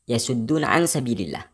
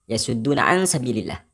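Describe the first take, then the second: Both takes have the same delivery.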